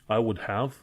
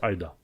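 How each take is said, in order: First: Each word is said fully and separately. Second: The words are blended into two reduced syllables. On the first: "se scrie I would have" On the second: "poți să pronunți I'da"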